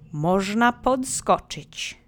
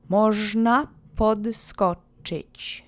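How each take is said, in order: First: It is said with strong, lively feeling. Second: It is said in a plain, even way.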